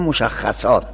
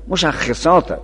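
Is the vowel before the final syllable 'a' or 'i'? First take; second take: a; i. First: The vowel before the last syllable is 'a'. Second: The vowel before the last syllable is 'i'. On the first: It is the common mistaken form. The speaker calls it wrong. "نه مشخصات" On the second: It is the active participle form. The speaker calls it right. "مشخصات اسم فاعله"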